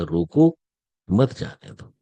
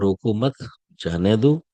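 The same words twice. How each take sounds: First: There is a pause after 'roko'. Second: There is a pause after 'mat'.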